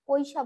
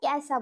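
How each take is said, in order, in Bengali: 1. প্রথম স্বরধ্বনিটি 'oi'-এর মতো যৌগিক স্বরধ্বনি। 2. প্রথম স্বরধ্বনিটি 'e'-এর মতো একক স্বরধ্বনি। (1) "কৈশা বলবো না" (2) "ক্যাসা বলবো, যেহেতু এ উচ্চারণ হয় ঐকার গুলো"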